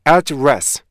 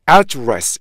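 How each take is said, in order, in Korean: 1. 두 음절 모두 같은 세기로 읽어요. 강세는 없어요. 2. 강세는 첫 음절에 있어요. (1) "강세가 앞에도 없고 뒤에도 없잖아요" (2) "명사로 사용되면 앞에 강세가 붙어요"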